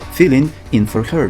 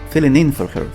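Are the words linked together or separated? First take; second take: separated; linked. First: The words are said separately, not linked. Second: The words are linked smoothly like one word. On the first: The speaker calls it wrong. "we don't say filling in for her" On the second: The speaker calls it right. "It sounds as one word"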